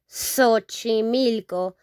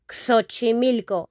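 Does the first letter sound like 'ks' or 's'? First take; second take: s; ks. First: The first letter sounds like 's'. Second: The first letter sounds like 'ks'. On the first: The speaker calls it right. "Like if it were an S, not an X" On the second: The speaker calls it wrong. "We don't pronounce it like Xochimilco"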